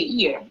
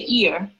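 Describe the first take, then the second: First: The word begins with a clear Y sound. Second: The word begins without a clear Y sound. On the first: This is the standard way to say it. The speaker calls it right. "I cannot say year" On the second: This is how a Portuguese speaker tends to say it. The speaker calls it wrong. "I say year, ... because that Y, the sound of Y"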